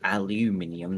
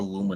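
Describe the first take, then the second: First: The word is said the British way. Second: The word is said the non-British way. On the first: The speaker calls it right. "because we pronounce it correctly" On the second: The speaker calls it wrong.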